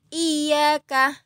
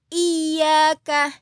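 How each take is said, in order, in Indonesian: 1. Konsonan di tengah ditahan panjang. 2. Konsonan di tengah ditahan panjang.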